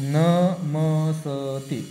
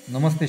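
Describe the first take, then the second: First: नमस्ते said very slowly, syllable by syllable; drawn out नमस्ते for the student; teacher stretching out नमस्ते; slow model word. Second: Said in the usual way. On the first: Shown as a demonstration. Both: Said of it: "नमस्ते शब्द आहे ते".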